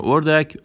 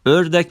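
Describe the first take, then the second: First: Said in the usual way. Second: "اردک" as ördek with rounded ö, higher pitched; Turkish pronunciation. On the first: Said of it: "به معنی همون اردک". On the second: Shown as a demonstration. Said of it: "اردک به معنی همون اردک".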